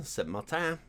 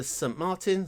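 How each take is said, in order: First: Saint-Martin said the French way, ending in a nasal "tan"; French pronunciation. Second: Saint-Martin said the English way, final n sounded; English pronunciation. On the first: Player correcting himself on the sign, Saint-Martin à la française. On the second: Player reading a French sign, Saint-Martin in plain English sounds. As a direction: say Saint-Martin as an English name, MAR-tin. Reads French name two ways. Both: Real, not acted.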